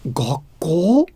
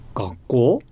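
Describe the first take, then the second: First: The word is said with strong, surprised emphasis. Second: The word is said plainly, without added stress. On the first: The speaker is surprised. "really try and add stress and emphasize the fact that I that I was surprised" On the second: The speaker is not stressing surprise. "not add too much stress, not really try and really emphasize the fact that I was surprised"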